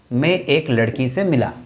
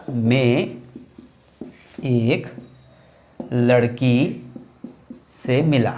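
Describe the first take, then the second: First: Said in the usual way. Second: Each word set apart by long pauses; spaced out for students to write down; slow, word by word. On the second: Shown as a demonstration. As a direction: dictate it slowly, one word at a time. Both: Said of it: "अब मैंने वाक्य क्या बोला?".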